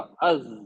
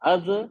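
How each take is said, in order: First: The final consonant is held smoothly without bouncing. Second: The final consonant ends with a bouncing echo. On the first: The speaker calls it right. "कन साउंड को रोकिए नहीं ना, ब अपने आप रुकेगा" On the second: The speaker calls it wrong. "देखो आपने वही कर दिया... ये क्या हो गया? कलकला हो गया ये तो"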